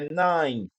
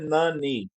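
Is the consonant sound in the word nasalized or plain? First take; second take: nasalized; plain. First: The consonant sound is nasalized. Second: The consonant sound is plain, not nasalized. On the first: The speaker calls it right. "é Nine" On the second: The speaker calls it wrong. "não é Nani"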